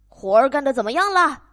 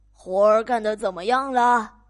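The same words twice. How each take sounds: First: Loud, fast, impatient farmer; 农夫又快又响地催问; fast farmer yell. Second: Loud, demanding farmer; 懒农夫大声嚷嚷; farmer yelling. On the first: Farmer yells faster. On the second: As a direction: yell it from bed like a lazy boss. Lazy farmer yells again. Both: Acted.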